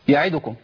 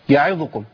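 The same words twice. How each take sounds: The two takes are said the same way.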